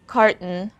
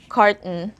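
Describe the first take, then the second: No difference in how they are said.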